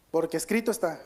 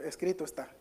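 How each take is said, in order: First: Escrito pressed hard and louder; stress on escrito. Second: Said in the usual way. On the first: Shown as a demonstration. Preacher reading scripture aloud, stressing escrito. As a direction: lean into the word "escrito" as you read it. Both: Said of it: "aquí Jesús siempre hace el énfasis de escrito".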